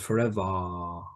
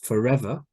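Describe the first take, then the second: First: It ends in a longer ah vowel. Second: It ends in a short schwa vowel. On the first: "the schwa at the end of the word becomes the longer ah sound" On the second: "when there's a schwa at the end of a word"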